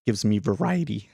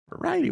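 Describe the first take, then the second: First: Said in the usual way. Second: Voice cracking. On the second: Real, not acted. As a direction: voice cracks up high on Variety. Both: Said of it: "Why is my voice cracking".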